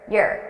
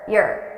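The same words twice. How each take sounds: No difference in how they are said.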